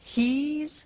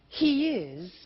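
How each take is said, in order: First: It is said as one contracted syllable. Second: It is said as two full words.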